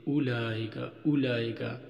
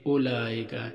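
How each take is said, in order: First: उलाइका with the waw sounded, u-laa-ika; wrong pronunciation. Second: उलाइका said ulaaika, the waw left silent; correct pronunciation. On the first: Teacher demonstrating the common mistake in उलाइका. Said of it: "इस तरह पढ़ना गलत है". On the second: Teacher showing students the right way to say उलाइका. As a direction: give उलाइका with a plain u and no waw sound. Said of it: "सही तलफ़ुज़ ये है". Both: Shown as a demonstration.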